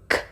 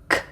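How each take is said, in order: No difference in how they are said.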